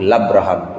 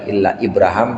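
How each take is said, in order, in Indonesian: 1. Nama itu disingkat, dengan bunyi yang dihilangkan. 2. Nama itu diucapkan lengkap, dengan setiap vokal. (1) "tapi illa Abraham" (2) "bukan illa Ibrahim"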